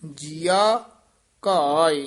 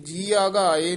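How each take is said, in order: First: The two words are slightly separated from each other. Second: The two words are run together without separation. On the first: The speaker calls it right. "ਯਾਨੀ ਥੋੜਾ ਜਿਹਾ ਨਖੇਰ ਕੇ ਪਾਠ ਕਰਨਾ" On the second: The speaker calls it wrong. "ਇਹ ਜੀਆ ਘਾਏ ਨਹੀਂ ਪਾਠ ਕਰਨਾ"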